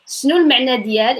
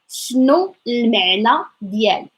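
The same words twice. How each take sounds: First: The phrase is said at normal speaking speed. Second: The phrase is said slowly and carefully.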